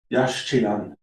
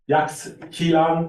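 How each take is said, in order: First: The x is pronounced as a sh sound. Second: The x is pronounced as a ks sound. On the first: The speaker calls it right. "it's yash chilan" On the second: The speaker calls it wrong. "it's not yax chilan"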